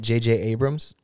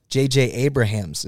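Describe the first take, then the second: First: "J J Abrams", the name said wrongly, the way people do. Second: "J J Abrahams" said right, with the extra "ha" syllable; correct name. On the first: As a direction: say "J J Abrams" like the famous director. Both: Shown as a demonstration. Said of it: "It's actually J J Abrahams".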